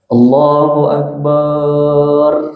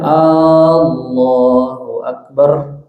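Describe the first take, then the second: First: The ba syllable is drawn out long. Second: The first A sound is drawn out long. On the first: "dengan memanjangkan huruf ba" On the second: "dengan nada tanya. A-nya yang panjang"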